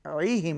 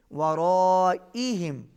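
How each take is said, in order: First: Said in the usual way. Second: ورائهم with the long vowel drawn out slowly; ورائهم recited with a full long madd. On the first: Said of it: "ورائہم نہیں". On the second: Shown as a demonstration. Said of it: "بڑی مد ہے، کھینچ کے پڑھیں گے".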